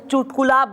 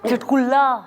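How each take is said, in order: First: The first syllable has a 'u' vowel: chut. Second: The first syllable has an 'a' vowel: chat. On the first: The speaker calls it right. "चुटकुला bird बोला ना जा रहा है हिंदी में" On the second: The speaker calls it wrong. "साले से चुटकुला बर्ड बोला ना जा रहा है"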